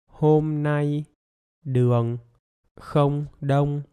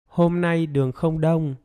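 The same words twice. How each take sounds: First: It is spoken a little faster, still separated. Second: It is spoken smoothly at normal conversational speed. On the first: "Now a little bit faster" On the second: "Now with normal speed"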